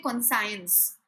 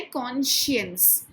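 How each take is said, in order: First: कॉन्साइंस said with a "sai" sound, the common mistake; wrong pronunciation. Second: कॉन्शियंस said with a "shiyans" sound, the right way; correct pronunciation. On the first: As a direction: say कॉन्साइंस the wrong way, like kon-science. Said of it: "ये कॉन्साइंस नहीं है". (गलत उच्चारण कॉन्साइंस, "साइंस" जैसा) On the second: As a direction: say कॉन्शियंस as kon-shuns. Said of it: "इसको pronounce करना है कॉन्शियंस". (सही उच्चारण कॉन्शियंस, "शियंस" के साथ) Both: Shown as a demonstration.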